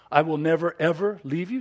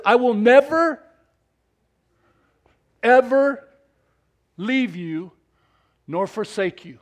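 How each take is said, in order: First: Said in the usual way. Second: "never" and "ever" loud and high, long pause between; stress on never ever. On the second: Acted. Preacher quoting God's promise, stress on never ever. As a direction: lean hard on "never, ever". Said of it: "It says".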